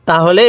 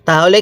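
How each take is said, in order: Both takes have the same delivery.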